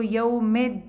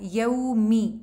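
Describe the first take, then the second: First: The final vowel is an 'eh' sound. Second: The final vowel is a long 'ee'. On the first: The speaker calls it wrong. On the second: The speaker calls it right.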